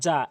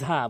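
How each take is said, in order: First: The first consonant is a j sound. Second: The first consonant is a voiced th sound. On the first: The speaker calls it wrong. "যেন যা যা এটি যেন না হয়" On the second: The speaker calls it right. "ঝা বলতে হবে"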